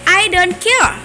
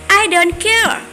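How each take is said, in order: The two takes are said the same way.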